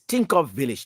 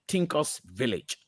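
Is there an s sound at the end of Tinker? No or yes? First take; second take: no; yes. First: Tinker is said with no s sound after it. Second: Tinker is said with an s sound after it. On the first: The speaker calls it right. "It's Tinker Village" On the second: The speaker calls it wrong. "not Tinker's Village"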